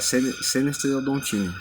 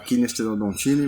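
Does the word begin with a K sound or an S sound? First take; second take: S sound; K sound. First: The word begins with an S sound. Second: The word begins with a hard K sound. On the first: The speaker calls it right. "é Senesterodontini, a pronúncia correta em português" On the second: The speaker calls it wrong. "eu costumo falar Kinesterodontini, mas não é"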